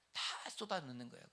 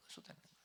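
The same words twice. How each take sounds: First: Said in the usual way. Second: Much softer repeated 쏟아넣는 거예요; soft echo. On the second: Real, not acted. Preacher echoing his own words to congregation, softly. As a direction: murmur the echo to yourself.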